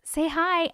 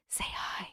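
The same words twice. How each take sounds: First: Said in the usual way. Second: Very soft, voiceless mimicked whisper; hushed copy of a whisper; imitated whisper. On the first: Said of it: "She says". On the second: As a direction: whisper it like the voice on the recording. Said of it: "sounds like someone whispering".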